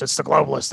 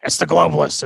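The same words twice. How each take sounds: First: Ranting conspiracy-host voice at near-normal pitch; a lightly voiced talk-radio ranter; Alex Jones impression, voiced. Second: Loud stage whisper, pitch dropped way down; a whispered, ranting Alex Jones bit; Alex Jones impression. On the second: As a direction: hiss the conspiracy at them in a forced whisper. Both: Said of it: "Tell me, Alex".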